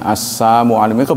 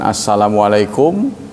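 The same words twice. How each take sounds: First: The greeting is said without the l sound. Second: The greeting is said with the l sound. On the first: A mocking distortion of the greeting. "lamnya dihilangin" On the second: A proper greeting of peace. "bukan assalamualaikum"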